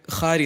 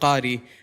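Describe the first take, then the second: First: The word begins with a raspy kh sound. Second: The word begins with a deep q sound. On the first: The speaker calls it wrong. "I could hear khari instead of qari" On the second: The speaker calls it right. "instead of qari"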